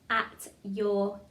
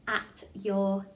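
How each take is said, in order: The two takes are said the same way.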